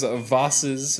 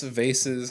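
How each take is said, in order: First: Vases said with a broad ah, VAH-siz; alternate pronunciation. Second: Vases said with a long ay, VAY-siz; alternate pronunciation. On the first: Tapping the pots, unsure of the word, vases pronounced VAH-siz. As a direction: say vases to rhyme with Oz's. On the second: Second guess at the word, vases pronounced VAY-siz. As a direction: say vases to rhyme with faces. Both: Shown as a demonstration. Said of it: "however you'd say it".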